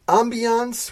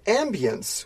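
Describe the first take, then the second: First: It is pronounced in a European, French-like way. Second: It is pronounced in an American way.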